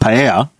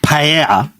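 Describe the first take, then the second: First: It is said the everyday English way. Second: It is said the Spanish way. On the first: Ordering food casually. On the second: Pedantically correcting someone.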